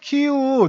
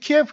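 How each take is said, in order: First: The name is said as 'Kiyu' with two syllables. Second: The name is said as 'Kiyep' with three syllables. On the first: The speaker calls it right. "발음이 뭐 키유가 맞다고 합니다" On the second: The speaker calls it wrong. "원래 키예프로 알고 있었는데"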